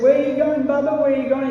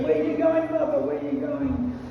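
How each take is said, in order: First: Lightly voiced small boy, higher and louder; a hint of an eager child calling Baba; little boy Krishna. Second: A hint of a pleading child, trailing off; little boy Krishna. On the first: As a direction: tug at father, asking where he goes. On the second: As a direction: ask again, tugging at the dhoti. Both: Young Krishna pleading with father.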